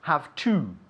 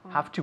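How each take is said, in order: First: Both words are said fully and separately. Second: The words blend together into a reduced form. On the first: The speaker calls it wrong. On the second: The speaker calls it right.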